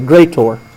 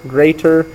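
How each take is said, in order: First: The last syllable has an 'or' sound. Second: The last syllable has a plain 'er' sound. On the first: "I spell it O R, and I pronounce it differently. I say greater" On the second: "instead of spelling greater"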